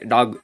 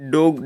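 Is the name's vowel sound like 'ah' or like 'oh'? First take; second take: ah; oh. First: The name is said with an 'ah' vowel. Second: The name is said with an 'oh' vowel. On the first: This is the correct pronunciation. "கரெக்டாக pronounce பண்ணுறேன்னா" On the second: This is the name the fans use. "ஃபேன்ஸே டோக் டோகு தானே"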